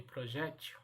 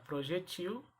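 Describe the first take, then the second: First: "projétil" said pro-JÉ-til; stress on middle syllable. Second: "projetil" said pro-je-TIL; stressed TIL in "projetil"; stress on last syllable. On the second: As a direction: hit the end of "projetil". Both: Shown as a demonstration. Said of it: "Eu posso pronunciar".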